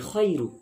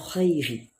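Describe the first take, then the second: First: The word ends with an 'u' vowel. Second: The word ends with an 'i' vowel. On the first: The speaker calls it right. "khairu bukan khairi" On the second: The speaker calls it wrong. "bukan khairi"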